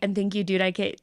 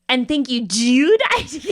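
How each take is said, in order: First: The word dude is said in a neutral accent. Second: The word dude is said in a strong regional accent. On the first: "the line that's like" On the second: "you say ... You lean into that so hard, and it's it's such a specific accent"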